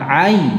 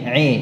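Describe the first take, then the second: First: The vowel is a clear open a. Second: The vowel leans toward an e sound. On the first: The speaker calls it right. "itunya tetap jelas fathahnya" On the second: The speaker calls it wrong.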